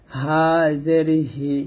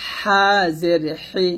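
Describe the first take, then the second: First: Slow easy হা and হি; unpressed air from throat start on হি; natural-breath ha. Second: Slow squeezed হা and হি; thin pressed air from mid-throat on হি; narrow-breath ha. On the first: Teacher drilling the second letter, natural-breath ha. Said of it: "স্বাভাবিকভাবে বাতাস". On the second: Teacher drilling the first letter, narrow-breath ha. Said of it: "চিকন বাতাস বের হবে". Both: Shown as a demonstration.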